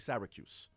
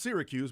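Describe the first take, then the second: First: It is said the way New Yorkers say it. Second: It is said in a general, non-New York way. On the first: "if you are from New York, you say Syracuse" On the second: "it's Syracuse"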